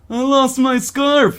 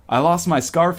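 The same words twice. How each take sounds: First: It is said in a pitiful, pathetic voice. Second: It is said in a plain, ordinary voice. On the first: The speaker calls it right. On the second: The speaker calls it wrong.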